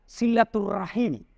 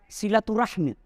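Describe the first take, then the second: First: The word ends with the sounds -rahim. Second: The word ends with the sounds -rahmi. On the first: This is the Arabic form of the word. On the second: This is the Indonesian form of the word. "Kalau pakai bahasa Indonesia"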